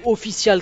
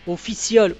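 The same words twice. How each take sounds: First: It is said with a French accent. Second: It is said with an English accent.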